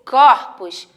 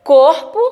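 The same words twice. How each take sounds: First: CORPOS with an open ó, cór-pos; CORPOS, stressed o open-mid. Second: CORPO with a closed ô, côr-po; CORPO, stressed o close-mid. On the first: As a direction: say "corpos" with a wide ó. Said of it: "ele vai dar o som de aberto". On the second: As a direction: say "corpo" with rounded ô, list-style lift. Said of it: "A tonicidade dela vai ser fechada". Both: Shown as a demonstration.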